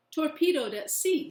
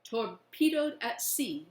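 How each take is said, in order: First: Loud, high, eager answer; a boy shouting his news; eager boyish call. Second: Slower, steady, in agreement; all nod along together; slow agreeing chorus. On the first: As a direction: blurt it out, excited. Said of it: "says Billy". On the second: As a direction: boys agreeing as one. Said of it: "we all agree". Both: Acted.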